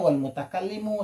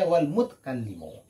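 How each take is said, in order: First: A vowel is sounded after the t. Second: No vowel is sounded after the t. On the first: This is the regular grammatical form. "seharusnya wal mutakallimu" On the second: This is how the verse reads it for the meter. "tapi dibaca wal mutkallimu"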